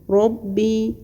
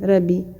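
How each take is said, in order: First: The r is pronounced full and heavy. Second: The r is pronounced thin and light. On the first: The speaker calls it right. "این گونه پر بخوانیم باید" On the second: The speaker calls it wrong. "نمیگیم ربی"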